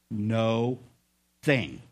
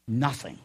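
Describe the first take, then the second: First: "No thing" split into two separate words; real slow. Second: Said in the usual way. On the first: Shown as a demonstration. Preacher spelling it out for Chuck, "No thing" slowly broken in two. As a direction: say "No", pause, then "thing", low and deliberate. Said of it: "gonna say this real slow". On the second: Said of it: "Put 'em together".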